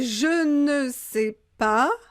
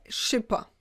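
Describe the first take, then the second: First: Every word is said in full, including ne. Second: The ne is dropped and the phrase is shortened. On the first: This is the standard form. "Ça, c'est le français standard" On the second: This is how it is said in speech. "Et à l'oral"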